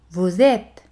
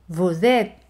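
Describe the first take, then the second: No difference in how they are said.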